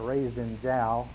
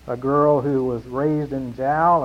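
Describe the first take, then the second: First: Slow "raised in Jal", with Jal said like chal; Jal said carefully. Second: Said in the usual way. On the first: Shown as a demonstration. Pastor showing how locals say his hometown. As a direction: draw out "Jal" so it does not sound like jail. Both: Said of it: "you gotta be careful how you say that".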